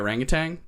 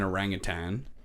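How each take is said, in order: First: The word ends with an added ng sound. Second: The word ends with a plain n sound. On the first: "sometimes I say orangutan, ... there's no G at the end, but it sounds better" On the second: "Why do I say it like that?"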